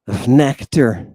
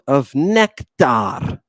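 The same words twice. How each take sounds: First: Said in the usual way. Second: "nectar" stretched out, slow and relishing; slow, indulgent "nectar"; savoured slowly. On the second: Shown as a demonstration. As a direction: linger over "nectar" like tasting it.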